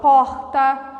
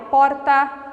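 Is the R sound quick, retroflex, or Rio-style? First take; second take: Rio-style; quick. First: The R is said the Rio de Janeiro way. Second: The R is a short, quick sound. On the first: This is how Rio de Janeiro speaks. "No Rio de Janeiro, o R já é diferente" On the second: This is how other regions of Brazil speak. "um R um pouco mais rápido"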